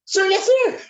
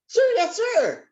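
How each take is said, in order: First: Very high, louder squeaky sir yes sir; high-pitched voice. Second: Very high, squeaky military reply; high-pitched voice. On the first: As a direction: squeak the reply to the major. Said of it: "say it just like that". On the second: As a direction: say sir yes sir way up high. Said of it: "that would be a very high-pitched voice". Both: Shown as a demonstration.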